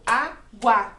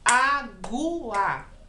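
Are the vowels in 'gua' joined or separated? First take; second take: joined; separated. First: The u and a run together in one syllable. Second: The u and a are split into two syllables. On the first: The speaker calls it right. "O guá sai junto" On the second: The speaker calls it wrong. "eu não falo água"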